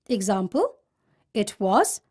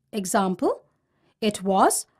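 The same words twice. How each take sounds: The two takes are said the same way.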